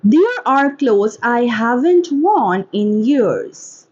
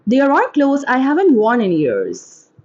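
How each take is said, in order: First: Slow, careful enunciation; slow model reading. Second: Said in the usual way. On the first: Shown as a demonstration. Teacher models a line for English shadowing, slowly. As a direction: read it slowly, word by word.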